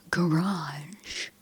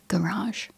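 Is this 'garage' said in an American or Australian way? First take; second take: American; Australian. First: It is said with a typical American pronunciation. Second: It is said with a typical Australian pronunciation. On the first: "in America how it's like garage" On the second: "Most Australians say"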